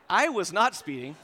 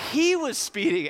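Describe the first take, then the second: First: "I" punched, then the rest drops; stress on I. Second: "He" high, loud and punched; stress on He. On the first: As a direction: lean on "I" to deny it. Shifts blame from himself. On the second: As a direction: hit "He" hard to blame the friend. Blames his friend. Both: Retold or imitated.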